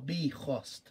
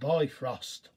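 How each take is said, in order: First: It is said the Old Norse way. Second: It is said the modern English way.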